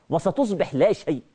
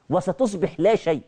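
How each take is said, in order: Both takes have the same delivery.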